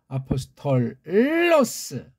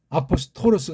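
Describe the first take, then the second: First: The middle has a held L sound before 'los'. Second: The middle has a single light flap consonant. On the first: The speaker calls it right. "그렇게 해야 돼요" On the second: The speaker calls it wrong. "아포스토로스가 아니고"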